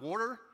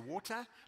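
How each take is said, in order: First: The middle consonant is a soft D-like sound. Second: The middle consonant is a clear T sound. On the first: "not as a D with an R before it" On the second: "We pronounce the word T as T"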